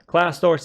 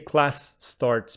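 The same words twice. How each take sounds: First: The two s sounds blend into one. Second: The two s sounds are said separately. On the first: The speaker calls it right. "they assimilate and mix together" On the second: The speaker calls it wrong. "she doesn't say class starts"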